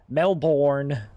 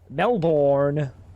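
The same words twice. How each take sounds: First: It is said with an American accent. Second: It is said with an Australian accent.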